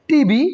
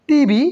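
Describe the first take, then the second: No difference in how they are said.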